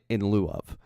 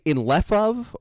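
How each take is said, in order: First: Lieu is said without an f sound, like 'loo'. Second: Lieu is said with an f sound, like 'lef'. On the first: This is the usual way, not the British one. "or in, in lieu of?" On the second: This is the British way of saying it. "do y'all say in lef of"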